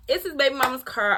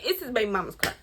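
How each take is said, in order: First: Put-on "baby" punched louder and higher; louder repeat stressing "baby"; emphatic repeat. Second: Said in the usual way. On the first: Shown as a demonstration. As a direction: hammer home "baby mama's car".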